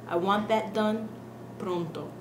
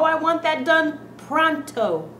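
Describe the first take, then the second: First: The O vowels stay pure and steady. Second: The O vowels glide and change. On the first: The speaker calls it right. "The real pronunciation to this word" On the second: The speaker calls it wrong. "What's wrong with that pronunciation?"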